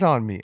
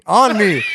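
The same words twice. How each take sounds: First: Said in the usual way. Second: "on me" louder and higher, punched out; emphatic repeat. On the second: Real, not acted. Storyteller repeating where he got tagged, emphatic "on me". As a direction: hit "on me" hard, in disbelief.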